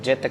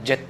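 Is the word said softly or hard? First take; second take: softly; hard. First: The word is said softly and lightly. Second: The word is said hard and firmly. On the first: It means because of which. The speaker calls it right. "जित को भी softly पढ़ना है" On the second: It means winning. The speaker calls it wrong. "जित नहीं कहना"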